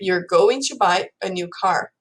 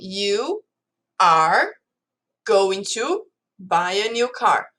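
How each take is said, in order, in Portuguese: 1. É falada em velocidade natural, com palavras contraídas. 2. É falada devagar, cada palavra separada. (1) "Eu falaria" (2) "Eu tô falando assim pausadamente, não é assim que a gente fala"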